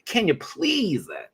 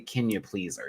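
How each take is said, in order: First: It is said in a playful, exaggerated way. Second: It is said in a plain, regular way.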